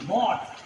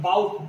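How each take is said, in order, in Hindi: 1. स्वर खुली 'aw' ध्वनि है। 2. स्वर फिसलती 'ow' ध्वनि है। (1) "इसका भूतकाल का रूप है बॉट" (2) "कई लोग बाउट पढ़ते हैं ... जो गलत उच्चारण है"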